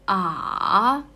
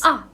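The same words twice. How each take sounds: First: The pitch dips low and then rises. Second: The pitch falls sharply from high to low. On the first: "from the lower up and then it's going down and then up again" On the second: "from highest point sharply going down"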